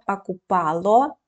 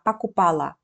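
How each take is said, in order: First: The final vowel is a full 'o' sound. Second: The final vowel is pronounced like 'a'.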